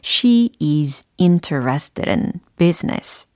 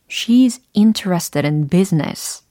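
First: Each word is pronounced separately and clearly. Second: The words run together in natural connected speech.

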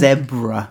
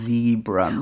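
First: Zebra is said the British way. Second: Zebra is said the American way.

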